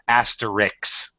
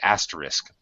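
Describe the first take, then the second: First: The word ends with a k sound, then s. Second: The word ends with an s sound, then k. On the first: The speaker calls it wrong. "Everybody mispronounces it and puts the K before the S" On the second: The speaker calls it right. "but it's actually asterisk"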